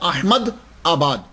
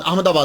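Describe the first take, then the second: First: Said as two parts, Ahmad and Abad. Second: Said run together as one word, Ahmedabad. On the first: This is the original form of the name. "असल तो pronunciation होता है" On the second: This is the everyday form from frequent use. "कसरत इस्तेमाल की वजह से हम अहमदाबाद अहमदाबाद बोलते हैं"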